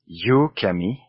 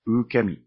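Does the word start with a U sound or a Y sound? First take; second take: Y; U. First: The word starts with a Y sound. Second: The word starts with a sharp U sound. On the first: The speaker calls it wrong. "yukemi with a Y at the beginning" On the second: The speaker calls it right. "with a sharp U sound at the beginning"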